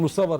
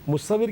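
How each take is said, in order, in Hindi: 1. आखिरी r से पहले का स्वर 'a' है। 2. आखिरी r से पहले का स्वर 'i' है। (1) "हम पंजाबी में कहते हैं मुसव्वर, जेर की जगह ज़बर पढ़ लेते हैं" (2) "मुसव्विर के माने बनाने वाला"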